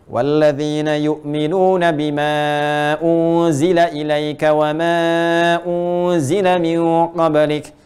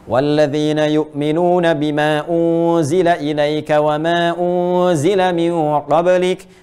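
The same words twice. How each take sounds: First: The stretched vowels are held for about two seconds. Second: The stretched vowels are held for about one second. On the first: "Empat harakat, dua detik" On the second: "kalau kita bacakan dua harakat berarti satu detik"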